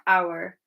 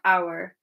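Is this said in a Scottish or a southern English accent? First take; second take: Scottish; Scottish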